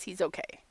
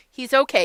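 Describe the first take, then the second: First: Quieter, calm reassurance; He's okay said softly and calmly; softer reassurance. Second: Laughing while reassuring viewers; He's okay with a relieved laugh; laughing relief. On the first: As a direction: settle the viewers gently. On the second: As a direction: let a laugh carry the words. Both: Real, not acted. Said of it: "you guys".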